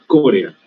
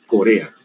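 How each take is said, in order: First: "Corea" stressed on the re, co-RE-a, the habit being corrected; wrong stress. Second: "Corea" stressed on the first syllable, CÓ-re-a; correct stress. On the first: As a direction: say "Corea" as co-RE-a, the way the students do. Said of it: "No se dice Corea". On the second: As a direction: say "Corea" as CÓ-re-a, three syllables, weight on CO. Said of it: "se dice Corea". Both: Shown as a demonstration.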